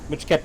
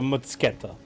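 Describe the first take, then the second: First: The word is said with a 'ch' sound. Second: The word is said with a 'ts' sound. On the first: The speaker calls it wrong. "No ch" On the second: The speaker calls it right. "So, ts, basically, yeah"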